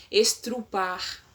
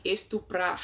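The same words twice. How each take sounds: First: "estrupar", with the r after the t; colloquial estrupar. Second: Said in the usual way. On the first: Shown as a demonstration. Teacher showing the swapped "estrupar". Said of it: "ao invés de estuprar". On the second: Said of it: "ao invés de".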